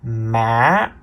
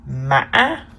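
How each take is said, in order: First: The pitch starts low and rises. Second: The pitch is high with a break. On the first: "The fourth tone is the low rising tone" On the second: "The fifth tone is called the high broken tone"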